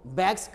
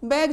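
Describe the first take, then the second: First: The word ends with an s sound. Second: The word ends with a z sound. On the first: The speaker calls it wrong. "अक्सर लोगों को देखो बैग्स कहेगा" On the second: The speaker calls it right. "जो होनी चाहिए"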